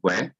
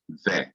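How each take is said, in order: First: The word begins with a w sound. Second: The word begins with a v sound. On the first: "pronounced we" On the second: "some Hebrews pronounce it ve"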